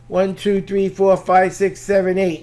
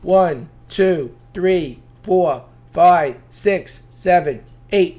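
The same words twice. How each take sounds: First: The counting is as fast as possible. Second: The counting is somewhat faster than before.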